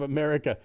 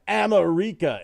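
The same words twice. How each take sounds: First: The word is pronounced in the ordinary way. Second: The word is pronounced in an unusual, altered way. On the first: It is the normal present-day pronunciation. "instead of" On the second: It copies a made-up future pronunciation. "the pronunciation of this new world"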